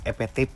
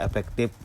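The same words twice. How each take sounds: First: "epetif" with P for F and the K dropped; mispronounced efektif. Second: Said in the usual way. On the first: Shown as a demonstration. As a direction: slur efektif into "epetif", losing its F and K. ("epetif", salah ucap: F jadi P, K hilang) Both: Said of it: "Jangan sampai kata efektif diucapkan jadi".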